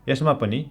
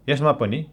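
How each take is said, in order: Both takes have the same delivery.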